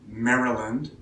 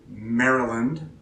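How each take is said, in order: The two takes are said the same way.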